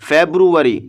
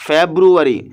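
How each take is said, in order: No difference in how they are said.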